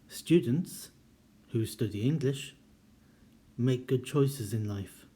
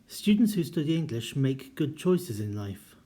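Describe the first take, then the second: First: Short pauses come before and after the clause. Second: The clause runs on with no pauses around it. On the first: All students study English and make good choices. "that implies that all students make good choices and all students study English" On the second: Only the students who study English make good choices. "defines what we mean by students"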